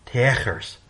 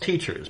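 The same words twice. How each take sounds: First: The middle consonant is a hard 'k' sound. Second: The middle consonant is a 'ch' sound. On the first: The speaker calls it wrong. "Let's sound out the word. T E A K E R S" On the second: The speaker calls it right. "It's teachers because the C and H are from a completely different language where they use C and H to make ch"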